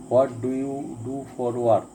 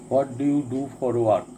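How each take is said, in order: Both takes have the same delivery.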